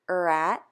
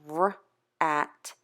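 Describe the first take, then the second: First: The R sound has an added vowel before it. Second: The R sound is a bare consonant, no vowel. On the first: The speaker calls it wrong. "when students are taught those sounds the wrong way" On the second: The speaker calls it right. "if they have the right sound"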